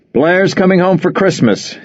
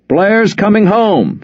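First: Blurted. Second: High, slow, loud repeat; repeated loudly. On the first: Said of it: "he blurted". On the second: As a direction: announce it to everyone. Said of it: "Frohmeyer repeated loudly". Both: Acted.

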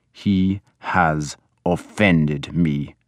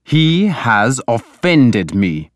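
First: Low-key, very slow, harsh pronouncement. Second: Higher, very slow stern charge; stern accusation. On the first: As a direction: weigh each word with cold harshness. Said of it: "Ragnar repeated harshly". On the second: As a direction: pronounce the grievance slowly and forcefully. Lord pronounces his grievance. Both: A narrator's reading.

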